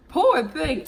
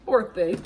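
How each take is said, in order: First: Mock pity. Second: Said in the usual way. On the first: Real, not acted. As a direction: pity him with a sarcastic sigh.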